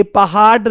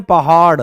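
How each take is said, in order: First: पहाड़ mispronounced as पहाड, with a stop; hard ड in पहाड़. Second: Flick the tongue at the end of पहाड़; flapped ड़ in पहाड़. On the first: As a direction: end पहाड़ on a hard ड, no flap. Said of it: "ऐसे तो कभी नहीं बोलते". (पहाड़ को बिना नुक्ते के पहाड बोलें) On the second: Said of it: "हम क्या बोलते हैं". (पहाड़ के अंत में नुक्ते वाला ड़) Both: Shown as a demonstration.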